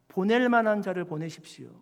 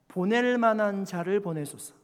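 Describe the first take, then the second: First: It is said with strong, pleading emotion. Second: It is read plainly, without added feeling.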